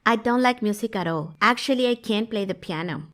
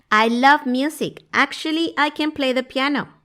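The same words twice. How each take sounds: First: Level, unraised tune leaning on "can't"; negative intonation. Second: High, upbeat tune with an unstressed "can"; positive intonation. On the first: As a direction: deny it, with the weight on "can't". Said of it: "Por mi entonación y mi contexto". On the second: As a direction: lift the pitch to affirm "I can play". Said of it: "Si fuera positivo, yo diría algo así". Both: Shown as a demonstration.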